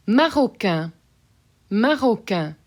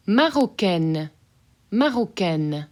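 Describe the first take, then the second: First: Marocain ending in a nasal vowel, no N. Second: Marocaine with a clearly sounded final N; N pronounced. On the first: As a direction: let Marocain fade into the nose. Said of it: "So that N gets". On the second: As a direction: land firmly on the N of Marocaine. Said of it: "So that N gets very obviously pronounced". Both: Shown as a demonstration.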